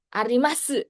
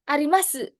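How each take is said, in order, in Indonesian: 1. Bunyi u terakhir diucapkan dengan jelas. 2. Bunyi u terakhir diucapkan dengan jelas.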